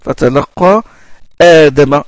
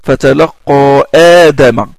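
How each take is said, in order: The two takes are said the same way.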